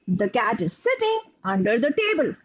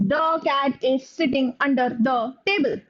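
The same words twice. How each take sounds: First: It is read in one or two long groups. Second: A pause follows every single word. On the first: "experts who make larger chunks and they read like this" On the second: "there can be somebody who reads it like this"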